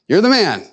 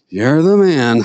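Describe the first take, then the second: First: It is said with enthusiasm. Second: It is said flatly, without enthusiasm.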